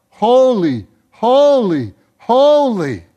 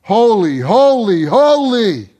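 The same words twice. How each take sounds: First: Crying out. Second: Each holy stronger and louder; building holy. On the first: Acted. Living creatures crying out holy. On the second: Shown as a demonstration. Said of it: "you heard the inflection of my voice".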